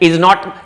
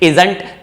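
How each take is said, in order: First: The two words are said separately and in full. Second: The two words are joined into one contracted word. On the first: The speaker calls it wrong. "इज नॉट मत बोल दीजिएगा" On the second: The speaker calls it right. "इज और नॉट को हम इजंट sound करते हैं"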